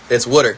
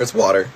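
First: "water" as WOODER; Philadelphia water. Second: "water" as WAW-ter; standard water. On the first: Showing a friend the accent, "water" said as WOODER. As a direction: say "water" with a short, rounded Philly vowel, WOODER. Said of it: "What is the Philadelphian accent?". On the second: Trying out the other way, "water" said as WAW-ter. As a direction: say "water" with an open AW vowel. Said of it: "No, it's water". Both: Shown as a demonstration.

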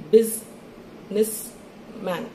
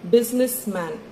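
First: Very slow, split as BUSI-NESS-MAN; syllable by syllable. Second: Said in the usual way. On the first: Shown as a demonstration. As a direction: chop Businessman into three parts with long gaps. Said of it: "every time your chin touches your hand". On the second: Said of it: "Let's take an example".

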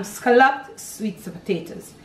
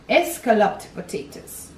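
First: Said in the usual way. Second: "escalloped" said with an extra e sound at the start; old pronunciation. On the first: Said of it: "But now there's no S". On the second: Shown as a demonstration. Cook recalling the old school name, "escalloped" with leading e. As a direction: say "escalloped" as eh-SCAL-loped. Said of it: "they said escalloped".

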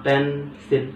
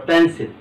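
First: pencil broken in two, "পেন", then "সিল"; split into syllables. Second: Said in the usual way. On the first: Shown as a demonstration. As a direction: stop after the first syllable of pencil. (Pencil শব্দটি থেমে দুই ভাগে উচ্চারণ) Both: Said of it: "তাহলে প্যানে থামলাম".

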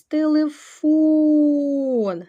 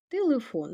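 First: "Телефон" called out high, with a very long "фон"; "Телефон", loud and stretched on the last syllable; stress on ФОН. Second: Said in the usual way. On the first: Shown as a demonstration. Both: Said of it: "Наголос".

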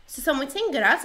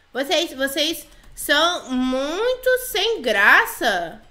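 First: Said in the usual way. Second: "vocês são muito sem graça" drawn out word by word; slow dictation. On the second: Pretend. Player types her complaint "vocês são muito sem graça", slowly dictating. Escreve reclamação, devagar.

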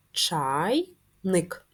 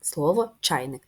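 First: Чайник drawn out slowly syllable by syllable; teacher sounding out Чайник for syllables; syllable-split word. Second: Said in the usual way. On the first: Shown as a demonstration. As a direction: say Чайник in two slow parts, ЧАЙ-ник. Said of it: "Два склади". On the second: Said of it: "Скільки складів містить слово".

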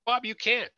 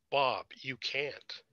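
First: Higher, louder alarmed cry of disbelief; shocked protest. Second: Slow, hushed disbelief; stunned. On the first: Friend hears bad news on the phone, alarmed disbelief. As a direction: gasp it out as the news lands. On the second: After the judgeship news, slow stunned disbelief. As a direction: let each word drop, numb. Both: A narrator's reading.

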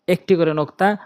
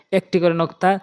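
No difference in how they are said.

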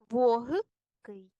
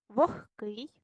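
First: Вогкий broken up with a voiced г, "VO-h-kyi"; spelling pronunciation. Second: Вогкий with г said as х, "vokh-kyi"; devoiced г. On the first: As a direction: dictate вогкий slowly as written. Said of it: "як саме ми пишемо". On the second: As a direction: say вогкий as spoken, "kh" before к. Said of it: "як парні глухі". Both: Shown as a demonstration.

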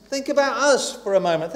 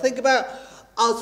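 First: Said in the usual way. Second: Pause, then land hard on "us"; stress on us. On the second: Shown as a demonstration. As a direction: hold back, then hit "us".

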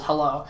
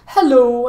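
First: Low, soft retold clown hello; understated clown greeting, dropped low; clown's greeting. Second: Higher, louder mock clown hello; clown's greeting. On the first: Clown from the trailer scene, low understated greeting. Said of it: "and he goes". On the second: Clown pops out at the little girl, showy greeting. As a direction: pop out with a bold clown greeting. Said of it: "and he says".

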